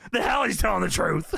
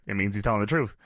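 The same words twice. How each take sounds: First: Imitated indignant disbelief; mock outrage. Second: Said in the usual way. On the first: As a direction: play a boss refusing to believe it. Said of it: "And Vince is losing it".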